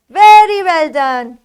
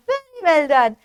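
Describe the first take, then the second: First: Much louder, emphatic well done; loud praise. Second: Said in the usual way. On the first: Pretend. Teacher praising the class, loud and emphatic. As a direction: cheer the class on.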